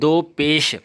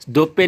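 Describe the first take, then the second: First: The second word is said fully with its final sound. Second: The second word ends without its final sound. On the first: The speaker calls it right. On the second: The speaker calls it wrong. "दो पे नहीं"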